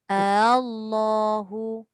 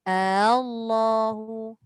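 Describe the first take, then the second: Both takes have the same delivery.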